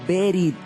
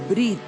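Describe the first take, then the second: First: A short vowel separates the b and r. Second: The b runs straight into the r. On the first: The speaker calls it right. "pero realmente ... en el original, es la palabra berit" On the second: The speaker calls it wrong. "Algunos dicen que esa palabra se pronuncia brit"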